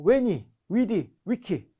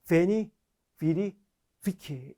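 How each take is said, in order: First: Each word starts with a w sound. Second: Each word starts with a v sound. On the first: This is the original classical pronunciation. "원어는요" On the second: This is the later medieval pronunciation. "V를 중세 발음처럼 V로 발음하면"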